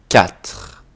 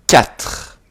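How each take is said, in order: The two takes are said the same way.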